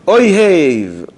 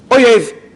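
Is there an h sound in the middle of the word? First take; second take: yes; no. First: An h sound is heard in the middle. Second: No h sound is heard in the middle. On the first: One loves. The speaker calls it right. "when we say Oyhev" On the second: An enemy. The speaker calls it wrong. "it may come out as Oyev, enemy"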